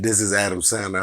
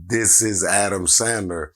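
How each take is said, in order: First: Said in the usual way. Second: Slow, deliberate self-introduction; slow, insistent. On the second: Retold or imitated. Caller insisting on who he is, slow and emphatic. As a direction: spell it out firmly, word by word.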